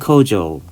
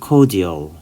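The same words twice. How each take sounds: First: The middle consonant sounds like a 'j'. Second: The middle consonant is a plain 'd'. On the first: "미국식은" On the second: "영국식은"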